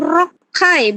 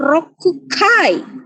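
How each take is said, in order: First: A doubled 'k' leads into 'kai'. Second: A full 'ku' syllable comes before 'kai'. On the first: The speaker calls it right. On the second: The speaker calls it wrong. "bukan rokukai"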